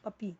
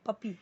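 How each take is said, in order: First: The middle p is single and light. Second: The middle p is single and light.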